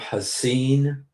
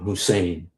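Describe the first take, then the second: First: The name is said with a distorted pronunciation. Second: The name is said in its own pronunciation. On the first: The speaker calls it wrong. "they never said it right" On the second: The speaker calls it right. "my name"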